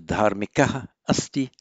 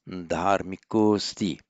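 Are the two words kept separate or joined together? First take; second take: separate; joined. First: The two words are said separately, ending in -aha. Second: The two words merge into one with an o sound.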